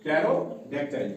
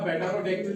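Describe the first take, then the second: First: "Pterodactyl" starting on the t, slowly; silent P. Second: "pterodactyl" with the P sounded; wrong pronunciation. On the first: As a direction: say "Pterodactyl" slowly as tero-dac-tile. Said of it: "यहाँ भी silent रहेगा पी". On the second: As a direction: say "pterodactyl" as pe-tero-dactyl. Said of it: "नहीं पढ़ा जाएगा". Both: Shown as a demonstration.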